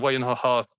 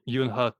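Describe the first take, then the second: First: The name begins with a 'why' sound. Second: The name begins with a 'you' sound. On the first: The speaker calls it right. "the pronunciation of Wayno host" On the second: The speaker calls it wrong. "I don't say Yunhost"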